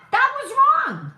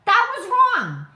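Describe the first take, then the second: First: Much higher and louder, outraged; indignant shout. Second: High, loud and firm; emphatic repeat. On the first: Ranting to viewers about network coverage, shouting. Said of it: "repeats for emphasis". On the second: Ranting to viewers, firm emphatic repeat. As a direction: hammer it home again. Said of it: "repeated emphasis". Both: Real, not acted.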